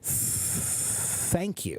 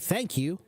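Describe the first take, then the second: First: The th sound is held and stretched out. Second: The th sound is said quickly and briefly. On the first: The speaker calls it right. "if I say it like this ... I've extended that sound" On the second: The speaker calls it wrong. "that goes by very quickly"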